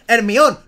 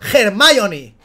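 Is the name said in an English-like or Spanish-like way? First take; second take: Spanish-like; English-like. First: The name is said with Spanish vowels and syllables. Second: The name is said with English-style vowels and syllables. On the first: The speaker calls it right. "Pues di Hermione" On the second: The speaker calls it wrong. "no Hermione. ¿Has nacido en Texas, bro?"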